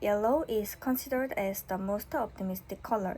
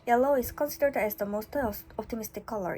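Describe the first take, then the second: First: It is read at a relaxed, normal pace. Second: It is read very fast with quick momentum.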